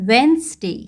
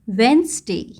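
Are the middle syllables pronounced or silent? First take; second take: silent; silent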